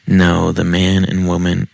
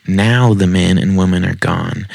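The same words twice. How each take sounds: First: "No" read as written, without the w sound; misspelling read aloud. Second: Said in the usual way. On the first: Shown as a demonstration. Reader voicing the writer's typo, "No" said as oh. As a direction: say "No" with an oh vowel. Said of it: "She literally just wrote N O". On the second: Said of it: "Sometimes it's because of their spelling".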